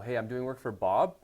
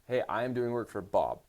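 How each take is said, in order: First: The voice rises at the end. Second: The voice falls at the end.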